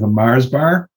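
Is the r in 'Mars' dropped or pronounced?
pronounced. The r in Mars is pronounced.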